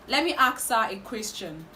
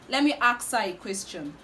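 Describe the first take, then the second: Both takes have the same delivery.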